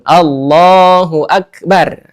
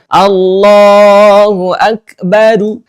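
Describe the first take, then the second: First: The last word ends on the r consonant. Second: The last word ends with an added u vowel. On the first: "sunnahnya adalah sudah aja ro-nya diberikan sukun" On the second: "membaca dhammah ro dari lafaz akbar"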